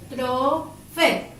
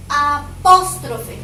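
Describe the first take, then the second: First: "Apóstrofe" very slowly as A, POS, TRO, FE; each syllable of "Apóstrofe" drawn out and set apart; split into syllables. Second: "Apóstrofe" with PÓS punched loud and drawn out; slow "Apóstrofe", the weight thrown onto PÓS; stress on the second syllable. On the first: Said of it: "Separa en sílaba". (apóstrofe separado en sílabas, muy lento) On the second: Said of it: "Cargo la voz aquí". (apóstrofe con la voz cargada en PÓS, lenta y fuerte) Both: Shown as a demonstration.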